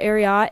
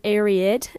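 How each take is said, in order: First: It is said the common Midwestern way. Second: It is said to match the end of Secretariat. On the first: The speaker calls it wrong. "In the Midwest, people call it Ariat" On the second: The speaker calls it right. "it's Ariat ... after the horse secretariat"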